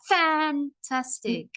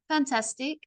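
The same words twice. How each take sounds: First: It is said too hard, almost screaming. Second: It is said flatly with no energy. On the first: "I can't sound like I'm screaming" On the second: "You can tell from my voice there's no energy"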